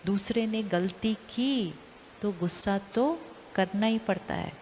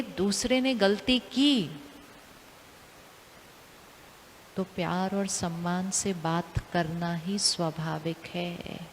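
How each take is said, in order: First: Said in the usual way. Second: Slow, soft and lower, said with calm love; gentle new belief. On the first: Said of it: "intention". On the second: Shown as a demonstration. Teacher voicing the new belief to listeners, softly and slowly. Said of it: "हम कहेंगे".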